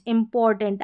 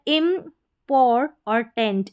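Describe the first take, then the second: First: Said in the usual way. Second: इम्पोर and टेंट spoken apart, slowly; split into syllables. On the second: Shown as a demonstration. Teacher splits the word for pupils, slowly. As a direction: break इम्पोर और टेंट into parts.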